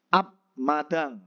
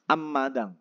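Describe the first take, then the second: First: The first syllable ends with a b sound. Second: The first syllable ends with an m sound. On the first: The speaker calls it wrong. "Kemudian ab madang" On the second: The speaker calls it right. "Tapi bacanya apa?"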